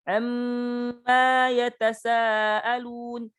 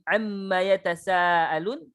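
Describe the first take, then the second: First: The m sound is held long. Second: The m sound is held short. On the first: The speaker calls it wrong. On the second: The speaker calls it right.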